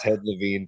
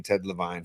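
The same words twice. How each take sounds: First: Levine ending like "seen"; Levine as "luh-VEEN". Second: Levine ending like "fine"; long I in the last syllable of Levine; Levine as "luh-VINE". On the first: Co-host giving both versions, Levine said "luh-VEEN". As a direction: stretch an EE in the last syllable of Levine. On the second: Co-host giving both versions, Levine said "luh-VINE". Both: Shown as a demonstration. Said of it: "Levine or Levine".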